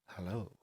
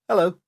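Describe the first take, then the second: First: It is said in a sultry voice. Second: It is said in a plain voice.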